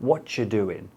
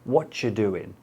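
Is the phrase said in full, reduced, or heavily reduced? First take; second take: heavily reduced; heavily reduced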